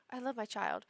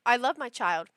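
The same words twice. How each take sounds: First: Softer, subdued quote; imitating regretful parents. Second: Said in the usual way. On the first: Regretful parent prefacing complaints about their child, subdued imitation. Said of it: "they're always like". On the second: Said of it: "I feel what I assume".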